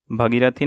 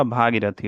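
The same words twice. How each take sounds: First: भगीरथी with a short first vowel; wrong short vowel. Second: Said in the usual way. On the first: Shown as a demonstration. Teacher showing students the wrong form, भगीरथी with short first vowel. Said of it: "नहीं होगा". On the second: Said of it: "भागीरथी होगा".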